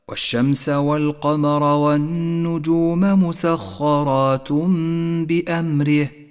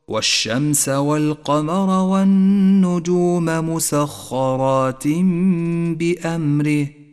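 First: Musakharat ends with an un sound. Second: Musakharat ends with an in sound. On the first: The speaker calls it wrong. "والخطأ الشائع أن تنون بالضم" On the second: The speaker calls it right. "صوابه"

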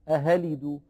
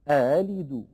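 First: The second glottal stop is replaced by an h sound. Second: The second glottal stop is softened toward a long a. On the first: The speaker calls it wrong. "ولا هي مبدلة هاء" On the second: The speaker calls it right. "هكذا نطق الهمزة المسهلة المفتوحة"

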